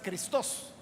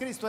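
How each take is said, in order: First: The stress is on the second syllable. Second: The stress is on the first syllable. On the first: This is the Greek form of the word. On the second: This is the Spanish form of the word.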